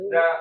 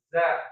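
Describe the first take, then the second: First: The consonant is a soft 'th' with tongue out. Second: The consonant is a buzzing 'z' with tongue inside. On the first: The speaker calls it right. "bunyinya bukan" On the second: The speaker calls it wrong. "tapi za"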